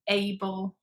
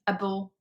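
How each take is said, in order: First: The ending is full with a clear vowel. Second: The ending is short with a reduced vowel. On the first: The speaker calls it wrong. "instead of able" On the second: The speaker calls it right. "It's much shorter, it's just able"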